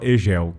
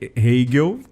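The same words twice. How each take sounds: First: The name is said with a Portuguese-style pronunciation. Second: The name is said with its German-style pronunciation. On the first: This is an older habit the speaker finds prettier. The speaker calls it wrong. "antes eu pronunciava Hegel, que eu acho muito mais bonito" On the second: This is the accepted form of the name. The speaker calls it right. "que é o nome certo"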